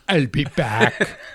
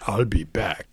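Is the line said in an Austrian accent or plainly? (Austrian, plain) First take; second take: Austrian; plain. First: It is said in a put-on Austrian accent. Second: It is said plainly, without a put-on accent. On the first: "Austrian accent" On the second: "He just said"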